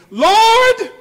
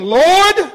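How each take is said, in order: First: Full desperate cry. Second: First cry, held back. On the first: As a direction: Lord cried out much higher and louder. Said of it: "there he go again". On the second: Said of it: "he cried, saying". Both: Retold or imitated.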